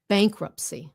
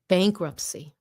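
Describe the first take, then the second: Both takes have the same delivery.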